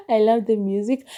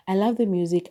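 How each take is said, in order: First: Higher and louder, gushing about the music; excited. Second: Said in the usual way. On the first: Real, not acted. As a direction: burst out with delight over the music. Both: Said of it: "This time I remember to listen to the music".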